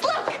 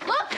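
First: High, loud alarm. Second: Said in the usual way. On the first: Acted. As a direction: point at it in alarm. Showing the wart.

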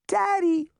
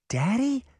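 First: Put-on very high toddler's call; high, excited little-child shout; child crying out. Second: High, rising DADDY as a question; puzzled "Daddy?" with a rising end; questioning repeat. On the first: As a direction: cry out for a parent, pitched way up. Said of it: "the child cried". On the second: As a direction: echo "Daddy" in disbelief, tune going up. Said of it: "Daphne repeated". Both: A narrator's reading.

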